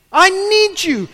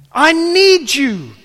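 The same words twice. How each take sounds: First: Higher, louder plea, quicker than the first; pleading. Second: Slow, drawn-out plea, loud and high; pleading. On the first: Believer repeating need to God, higher loud plea. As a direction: push the second plea even higher. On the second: Believer admitting need to God, slow loud plea. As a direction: stretch it out like a desperate prayer. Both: Acted.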